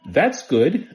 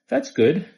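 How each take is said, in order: First: It is said in a raised, more forceful voice. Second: It is said in a calm, ordinary voice. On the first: It means stop now. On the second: It is mild approval.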